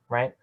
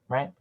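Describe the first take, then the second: The two takes are said the same way.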